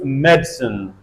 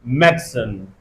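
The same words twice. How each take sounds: First: The middle vowel is dropped, giving two syllables. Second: The middle vowel is dropped, giving two syllables.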